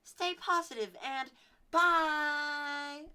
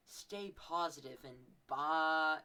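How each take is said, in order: First: High, loud, slow sign-off; squeaky-high and loud childish catchphrase; kid outro voice. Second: Slow sign-off. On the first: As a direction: sing it out like a kid vlogger. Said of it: "Like, I would". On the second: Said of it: "I would end it with". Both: Shown as a demonstration.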